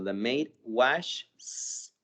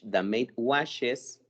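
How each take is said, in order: First: The verb ends with only an added s sound. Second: The verb ends with an added es syllable. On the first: The speaker calls it wrong. "si yo nada más le agrego la S, estaría hasta incluso se me hace difícil pronunciar" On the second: The speaker calls it right. "Si yo le agrego es, como nos dice la regla"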